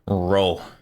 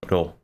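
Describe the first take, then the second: First: The R is a curled American R sound. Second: The R sounds between an R and D. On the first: The speaker calls it wrong. "They're doing really American R's" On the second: The speaker calls it right. "Japanese R's are somewhere between, I don't know, like a like an R and a D"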